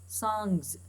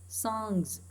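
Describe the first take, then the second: No difference in how they are said.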